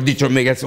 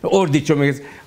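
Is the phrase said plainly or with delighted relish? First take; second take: plainly; delighted relish. First: It is said plainly, without special relish. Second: It is said with ecstatic, savoring delight.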